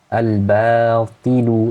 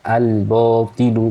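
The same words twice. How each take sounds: First: The vowel after b is an open 'a'. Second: The vowel after b is a rounded 'o'. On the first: The speaker calls it right. "harusnya ba ba" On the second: The speaker calls it wrong. "bo bo bo ... bukan bo. Jadi kurang terbuka rongganya"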